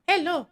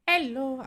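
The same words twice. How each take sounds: First: It is said in Ganu's character voice. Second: It is said in his ordinary voice.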